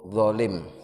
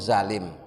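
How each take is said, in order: First: The word begins with an emphatic D-like sound. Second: The word begins with a plain Z sound. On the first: The speaker calls it right. "Yang benar itu dolim pakai dho" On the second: The speaker calls it wrong. "di bahasa sehari-hari itu zalim pakai za"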